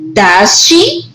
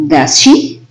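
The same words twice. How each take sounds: First: "she" lifts up at the end; rising tag intonation. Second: "Does she?" pitched low, as just checking; falling tag intonation. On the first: Teacher showing an unsure question tag, "she" rising. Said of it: "intonation of the question tag goes up". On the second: Teacher showing a checking question tag, "she" meant to go down. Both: Shown as a demonstration.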